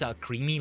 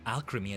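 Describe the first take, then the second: First: The middle syllable sounds like the word cream. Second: The middle syllable sounds like chem in alchemy. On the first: The speaker calls it wrong. "I don't think it's alcremie, like cream" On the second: The speaker calls it right. "Alchemy, I think it's meant to be"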